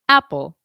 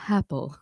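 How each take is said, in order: First: The vowel starts with a light, clean throat catch. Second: The vowel starts with an audible puff of breath. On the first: The speaker calls it right. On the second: The speaker calls it wrong. "adding an H"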